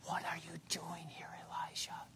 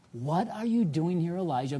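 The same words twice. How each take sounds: First: Very soft whisper; still small voice. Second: Said in the usual way. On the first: Acted. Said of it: "But in a still small voice". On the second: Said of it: "The same question".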